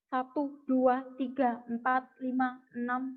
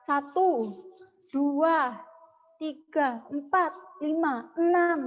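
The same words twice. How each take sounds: First: The counts come at a steady, even rhythm. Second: The counts come at an irregular, uneven rhythm. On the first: The speaker calls it right. "Nah itu konsisten" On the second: The speaker calls it wrong. "Nah itu itu tidak konsisten"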